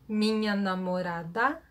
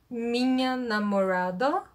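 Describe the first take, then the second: First: The A vowel is open and bright. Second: The A vowel is dark, like in car. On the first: The speaker calls it right. "this open A vowel" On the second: The speaker calls it wrong. "they have car vowel instead"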